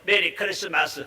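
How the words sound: It is read out flatly, like a schoolchild.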